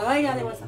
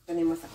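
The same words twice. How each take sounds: First: Regardez-moi ça, a bit higher and louder, proudly; proud exclaim. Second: Said in the usual way. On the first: Real, not acted. Cook proudly showing her finished salad, excited. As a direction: show off the salad, beaming.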